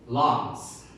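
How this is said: The word is said in a British accent. "For British accent we can say lens"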